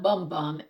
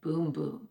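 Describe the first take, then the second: First: The vowel sounds like 'uh' as in 'bum'. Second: The vowel sounds like 'oo' as in 'boom'. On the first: The speaker calls it wrong. "It's not Bum Bum" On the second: The speaker calls it right. "but it said Boom Boom"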